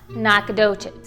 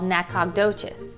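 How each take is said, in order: First: The name is said the way locals say it. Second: The name is said the way outsiders say it. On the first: The speaker calls it right. "it's pronounced" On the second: The speaker calls it wrong. "You'll commonly hear it from people like me called"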